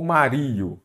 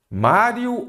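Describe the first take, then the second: First: "Mario" stressed on the RI, like ma-RI-o; wrongly shifted stress. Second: "Mário" drawn out with stress on MÁ; stress on first syllable. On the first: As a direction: say "Mario" slowly, leaning on the middle "ri". ("Mario" com a tônica errada no "ri") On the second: ("Mário" com a primeira sílaba tônica, bem marcada) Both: Shown as a demonstration. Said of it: "Se você falou Mario, fiquei bravo".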